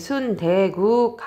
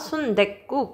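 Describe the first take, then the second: First: The consonant starting 국 is plain. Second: The consonant starting 국 is tense. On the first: The speaker calls it wrong. "순대국 하는 것보다" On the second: The speaker calls it right. "순댓국 이게 훨씬 편하거든요"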